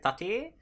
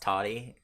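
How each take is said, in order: First: It is said with a crisp, emphasized middle T. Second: It is said quickly with a softened middle T. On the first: "I need to emphasize the second T" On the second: "if I say it fast"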